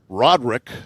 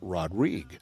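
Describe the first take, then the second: First: The name is said in an English-sounding way. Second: The name is said in a French-sounding way. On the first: This is how the player pronounces his own name. "the way he pronounces it" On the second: This is how the doctor pronounces his own name. "insists we call him"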